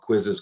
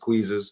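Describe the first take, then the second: First: The first vowel is a short 'i' sound. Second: The first vowel is a long 'ee' sound. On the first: This is the ordinary way to say it. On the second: This imitates a former teacher's saying.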